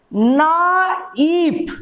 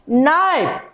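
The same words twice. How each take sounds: First: नाइफ drawn out very slowly, sound by sound, no K; silent K shown. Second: Said in the usual way. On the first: Shown as a demonstration. Teacher showing students the K is not heard, नाइफ drawn out slowly. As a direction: stretch नाइफ into "naa-eep", starting on N. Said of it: "के का उच्चारण हो रहा है?". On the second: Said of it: "क्या बोल रहे हैं?".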